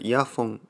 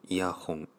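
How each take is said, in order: First: The second syllable starts with an f sound. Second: The second syllable starts with an h sound. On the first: "これイヤフォン" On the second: "イヤホンと言いましたけど"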